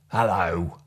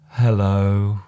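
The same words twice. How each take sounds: First: It is said in an angry tone. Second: It is said in a sad tone. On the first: "an angry hello" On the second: "a sad hello"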